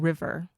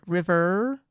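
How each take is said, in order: First: The final R sound is clearly pronounced. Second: The final R sound is dropped. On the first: "or river for standard accent" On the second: "we're going to pronounce it like river"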